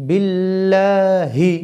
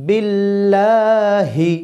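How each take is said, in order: The two takes are said the same way.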